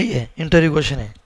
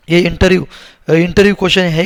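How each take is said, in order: First: Said in the usual way. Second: Louder, punching interview question; emphatic call-out. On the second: Real, not acted. Teacher to students, loudly stressing it's an interview question. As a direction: hammer home that interview question matters.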